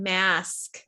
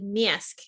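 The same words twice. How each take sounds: First: It is said in a standard American accent. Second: It is said in a Chicago accent. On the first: "I don't teach you the way that I grew up speaking" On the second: "the way that I grew up speaking"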